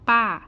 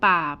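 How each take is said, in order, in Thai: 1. เสียงตกอย่างรวดเร็วจากสูงลงต่ำ 2. เสียงต่ำลงแล้วขึ้น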